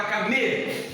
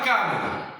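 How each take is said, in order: First: Camelo with a held, stressed ME. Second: Wrong CÁ-melo, first syllable punched; stress on CA. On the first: Teacher shows the animal word, camelo stressed on ME. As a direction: put the weight on the middle ME of camelo. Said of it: "Você fala camelo". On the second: Teacher shows a wrong camelo, stressed on CA. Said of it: "Você não fala". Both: Shown as a demonstration.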